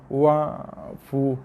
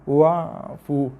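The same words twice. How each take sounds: No difference in how they are said.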